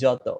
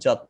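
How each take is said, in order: First: The word ends with an 'o' vowel sound. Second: The word ends on a bare 't' consonant. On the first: "এই যত বললে দেখেন আপনি অ উচ্চারণ করছেন" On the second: "নিচে হসন্ত দেই, তাহলে এটা উচ্চারণ কিন্তু যত না"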